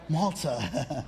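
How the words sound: The word is said in an English accent.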